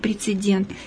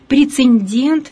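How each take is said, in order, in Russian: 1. Произносится нормативно, по литературной норме. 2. Произносится разговорно, ненормативно. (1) "вместо" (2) "к просторечным единицам мы отнесем такие варианты"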